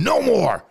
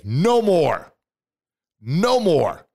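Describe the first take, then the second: First: Loud, much higher cry of defiance; shouted no more. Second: Loud, high, forceful refusal; shouted no more. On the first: Coach urging listeners to shout, loud and high. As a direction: yell it out with everything. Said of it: "Now I want you to say again". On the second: Motivational speaker shouting at his doubts, loud and high. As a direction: belt it out like slamming a door. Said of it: "And I want you to say". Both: Shown as a demonstration.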